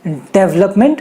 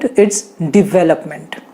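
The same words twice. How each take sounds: First: "development" said as the mistaken form; wrong pronunciation. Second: "development" said very slowly and lower; correct pronunciation. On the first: Teacher showing the wrong "development". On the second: Teacher slowly modelling "development". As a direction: stretch out "development" carefully. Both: Shown as a demonstration. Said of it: "It's not".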